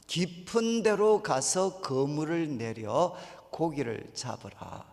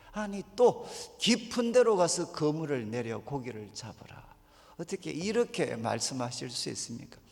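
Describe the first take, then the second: First: Slow, measured quoted command; calm command. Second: Indignant retort, last word breathed away; exasperated mock complaint. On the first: Retold or imitated. Jesus calmly tells Simon, slow and measured. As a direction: lay out the order slowly and evenly. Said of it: "시몬한테 뭐라고 이야기했나". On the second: Tired Simon protests Jesus's order, mildly exasperated. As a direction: throw the order back in disbelief. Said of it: "아마 이렇게 반응했을 거예요".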